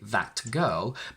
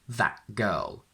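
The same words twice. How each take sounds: First: The t of 'that' is fully pronounced. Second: The t of 'that' becomes a glottal stop. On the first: The speaker calls it wrong. "we can't say that girl" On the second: The speaker calls it right. "I swallow the T and transform it into this glottal stop"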